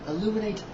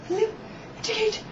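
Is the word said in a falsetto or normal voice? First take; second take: normal; falsetto. First: It is said in a normal speaking voice. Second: It is said in a high falsetto voice.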